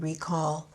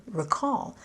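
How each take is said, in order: First: "recall" as RE-call, the noun; stress on first syllable. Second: "recall" as re-CALL, the verb; stress on second syllable. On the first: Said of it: "stress on the first syllable". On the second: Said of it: "accent on the second syllable". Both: Shown as a demonstration.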